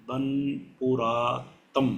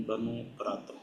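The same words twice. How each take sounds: First: बनपुरातम sounded out slowly, syllable by syllable; slow first try at a name. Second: बनपुरातम repeated quickly and much softer, trailing off; softer second try. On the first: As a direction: spell out बनपुरातम carefully, unsure of it. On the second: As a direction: mutter बनपुरातम again, half to yourself. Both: Real, not acted. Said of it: "अच्छा यार माजरत है".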